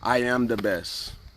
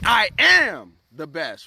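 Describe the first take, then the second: First: It is said in a flat, low-energy way. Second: It is said loudly with strong energy. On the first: The words are only recited. The speaker calls it wrong. "you don't just want to say it" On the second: The words are said with conviction. The speaker calls it right. "You want to say"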